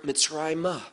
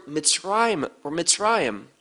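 First: Mitzrayimah with an open "ah" after the M; added final syllable. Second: Mitzrayim ending on a closed M sound; no final syllable. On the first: Teacher showing the hey at the end, "Mitzrayimah" ending in open "ah". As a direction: finish "Mitzrayimah" on an extra "-ah". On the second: Teacher contrasting two Hebrew word forms, "Mitzrayim" ending on M. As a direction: say "Mitzrayim" with nothing after the final M. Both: Shown as a demonstration. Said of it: "The hey at the end".

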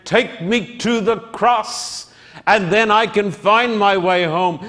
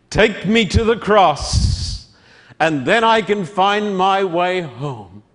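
First: Preacher's plea. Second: Lightly voiced child asking to be led; lost little girl. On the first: Acted. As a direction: plead with the congregation as your own. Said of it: "I say today, my friend". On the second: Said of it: "and she said".

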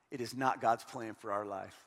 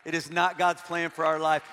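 First: "It is not God's plan for our life" dropped low and soft, deliberate; quiet emphatic. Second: "It is not God's plan for our life" back at full voice, stress on "God's"; firm restatement. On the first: Preacher to a hurting congregation, low and soft. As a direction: lower and much softer on "God's", weighty. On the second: Preacher reassuring the struggling, firm and full. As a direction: say it again firmly, leaning on "God's". Repeated line for emphasis. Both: Acted.

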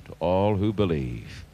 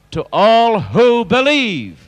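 First: Hushed repeat. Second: Loud, high shout, stretched on the key words; ringing, high-pitched preacher's cry; shouted proclamation. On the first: Real, not acted. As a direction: drop right down and say it quietly. Soft repeat after the shouted line. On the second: Shown as a demonstration. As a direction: shout it out to the whole congregation. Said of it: "Shout it".

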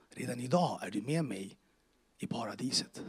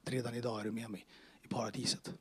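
First: Said in the usual way. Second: Soft whispered reassurance; hushed words of Jesus; whispered promise. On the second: Retold or imitated. Jesus' answer retold again.

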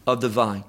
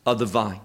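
No difference in how they are said.

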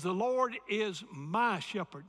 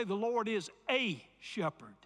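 First: My said slowly and firmly; slow, firm my in my shepherd; stress on my. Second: A stressed; a shepherd, with a weighted. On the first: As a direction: land on my in The Lord is my shepherd. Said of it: "It says". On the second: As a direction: lean on the word a. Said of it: "notice it didn't say". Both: Shown as a demonstration.

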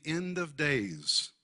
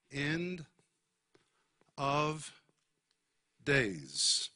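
First: Said in the usual way. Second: "end ... of ... days", long pause between words; word-by-word emphasis. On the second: Shown as a demonstration. Preacher repeating "end of days" for the congregation, spaced out.

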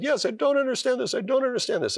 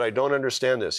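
First: Much higher, echoing the doctor's words in wonder; much higher amazed repeat of the doctor's words. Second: Said in the usual way. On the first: Retold or imitated. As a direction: lift it way up, stunned it's coming true.

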